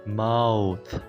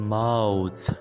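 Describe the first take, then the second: No difference in how they are said.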